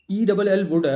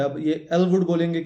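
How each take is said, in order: First: Letters ای ڈبل ایل ووڈ said one by one; spelling it out. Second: ایل ووڈ said as one word, ووڈ stressed; ایل ووڈ spoken whole with the stress on ووڈ; saying the name. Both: Shown as a demonstration. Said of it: "اس کا کیا pronunciation بنتی ہے".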